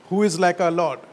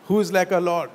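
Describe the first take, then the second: No difference in how they are said.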